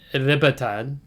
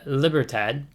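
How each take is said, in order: First: It is said with a Spanish accent. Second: It is said with an American English accent. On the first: The speaker calls it right. "but it's like" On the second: The speaker calls it wrong. "I always want to say in my American accent"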